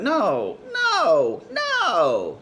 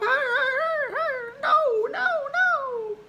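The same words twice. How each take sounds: First: The pitch stays lower, not squeaky. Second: The pitch goes up into a squeaky voice. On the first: A man is denying something. "that's not really Mickey Mousey" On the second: The speaker is lying under anxiety. "they start to go up"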